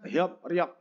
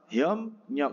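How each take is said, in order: First: The syllables join with a p then r sound. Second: The syllables join with an m then n sound. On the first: This is the original form. The speaker calls it wrong. "aslinya kan hiop riok" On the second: This is how it is actually read. The speaker calls it right. "biep menjadi m"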